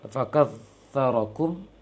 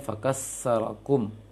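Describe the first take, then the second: First: The middle consonant is a 'th' sound. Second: The middle consonant is an 's' sound. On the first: The speaker calls it right. "tertukarnya ta dengan sin" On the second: The speaker calls it wrong. "dibacanya fakassarakum"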